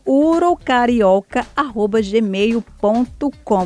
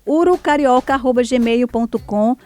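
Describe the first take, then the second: First: It is said very slowly. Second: It is said at normal speed.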